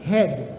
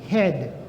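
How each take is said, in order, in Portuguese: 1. O d final é suave, quase não se ouve. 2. O d final é suave, quase não se ouve.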